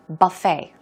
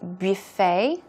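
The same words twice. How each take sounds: First: The word is said in an American way. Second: The word is said in a French-like way. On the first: "very American" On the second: "French-like by saying buffet"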